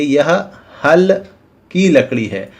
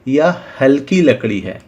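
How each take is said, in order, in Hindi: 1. 'hal' और 'ki' के बीच विराम होता है। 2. 'hal' और 'ki' बिना विराम के एक साथ बोले जाते हैं। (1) "जिससे किसान खेतों में जुताई करता है" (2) "ये जो लकड़ी है वो कम वजनदार है"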